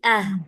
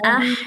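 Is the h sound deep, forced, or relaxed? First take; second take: relaxed; deep. First: The h is light and relaxed. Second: The h is made deep in the throat. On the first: The speaker calls it right. "ah biasa aja" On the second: The speaker calls it wrong. "kebablasan juga ke tengah tenggorokan... Nah, itu salah"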